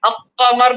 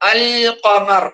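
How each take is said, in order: First: The L is dropped, running straight into Q. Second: The L is pronounced clearly before Q. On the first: The speaker calls it wrong. "അഖമർ എന്നല്ലല്ലോ പറയാം" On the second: The speaker calls it right. "അൽ ഖമർ അല്ലെ"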